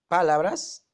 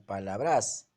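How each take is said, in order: First: The stress is on the first syllable. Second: The stress is on the last syllable. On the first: "La mayor fuerza está en la pa" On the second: "La mayor fuerza está en bras"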